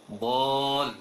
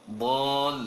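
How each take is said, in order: No difference in how they are said.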